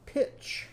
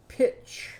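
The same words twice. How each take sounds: First: "Pitch" whispered with no voice. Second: Whispered again. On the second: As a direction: repeat "Pitch" in a whisper. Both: Shown as a demonstration. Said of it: "say this before me or after me".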